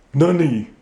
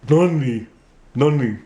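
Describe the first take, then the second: First: Nunny said with a plain N sound; conventional ventriloquist money. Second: Nunny with tongue rolled back, closer to Money. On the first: Ventriloquist shows the old way, puppet says Nunny. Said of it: "do it the conventional way". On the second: Ventriloquist shows his new technique, puppet says Nunny. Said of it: "I rolled it back, pushed it up against my palate". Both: Shown as a demonstration.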